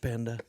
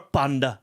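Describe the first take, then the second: First: It is said in an American accent. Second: It is said in a British accent.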